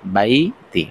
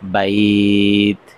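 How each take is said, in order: First: A vowel sound follows the final 't'. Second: The word stops sharply on the 't' sound. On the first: The reading continues without stopping. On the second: The reader stops at this word.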